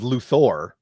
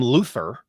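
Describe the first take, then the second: First: The second syllable has a full O vowel. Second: The second syllable has a weak, reduced vowel. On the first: The speaker calls it right. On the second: The speaker calls it wrong.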